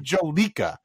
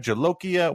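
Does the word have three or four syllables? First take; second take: three; four. First: The word is said with three syllables. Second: The word is said with four syllables. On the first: The speaker calls it wrong. "it's not Jolica" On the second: The speaker calls it right. "It's Jolokia"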